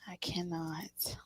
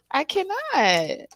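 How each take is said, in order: First: Breathless whisper, much softer. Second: Drawn out, high, disbelieving; slow and higher, as if it's too much; I cannot. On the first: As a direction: whisper it to yourself in disbelief. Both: Real, not acted. Overwhelmed by the reading.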